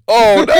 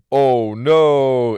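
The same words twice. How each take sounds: First: Much higher and louder cry of dismay, then laughter; laughing oh no. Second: Louder, startled mock dismay; a quick, startled oh no. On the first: Retold or imitated. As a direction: yelp oh no, high and loud, and break into laughing. Friend says he got no raise. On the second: Reacting to the dirt sheet link.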